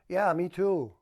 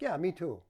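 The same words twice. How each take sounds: First: The reply sounds flat and unconvincing. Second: The reply sounds lively and playful. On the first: The listener does not really share the excitement. The speaker calls it wrong. "Not very believable, is it?" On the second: The listener shares the excitement. The speaker calls it right. "Could be fun"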